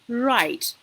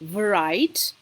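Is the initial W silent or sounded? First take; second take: silent; sounded. First: The initial W sound is silent. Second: The initial W sound is pronounced. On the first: The speaker calls it right. "we go with right" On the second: The speaker calls it wrong. "we don't pronounce the word as right"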